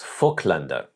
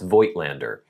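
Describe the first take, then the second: First: The name is said with a German pronunciation. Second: The name is said with an American pronunciation. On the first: The speaker calls it right. "Apparently, it's Vogtländer" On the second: The speaker calls it wrong. "as an American, you would say"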